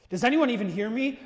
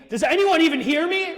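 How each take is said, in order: First: Said in the usual way. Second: Higher and louder, pressing; "Does anyone even hear me?" pushed higher and louder; more emphatic. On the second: Shown as a demonstration. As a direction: ask it again with more urgency. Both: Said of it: "more emphatic the second time".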